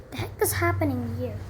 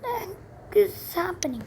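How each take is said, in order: First: Said in the usual way. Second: High, bewildered ask; startled question. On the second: Real, not acted. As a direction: ask it still thrown by the noise. Startled by dogs barking outside.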